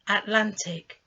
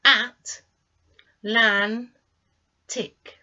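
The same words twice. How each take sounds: First: Said in the usual way. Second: At, lan, tick, each beat separate and loud; syllable by syllable. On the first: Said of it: "on the screen the word". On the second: Shown as a demonstration. Teacher to learners, splitting Atlantic into three syllables. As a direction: tap out At, lan, tick slowly. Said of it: "divide this into three syllables".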